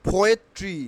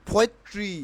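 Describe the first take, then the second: Both takes have the same delivery.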